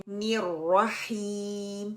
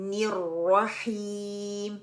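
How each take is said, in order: No difference in how they are said.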